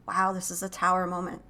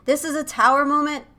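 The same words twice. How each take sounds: First: Said in the usual way. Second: "tower moment" said higher and louder, stress on "tower"; emphatic repeat. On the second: Real, not acted. Reader stressing the tarot card to viewers, emphatic. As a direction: hit "tower" hard.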